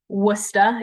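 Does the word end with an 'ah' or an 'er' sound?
ah. The word ends with an 'ah' sound. "switching out the E R for an A H as the uh, Boston accent often allows"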